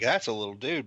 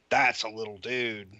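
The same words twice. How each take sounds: First: Said in the usual way. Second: 1 awed, emphatic. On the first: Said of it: "you're like". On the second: Retold or imitated. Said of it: "when you see him in person".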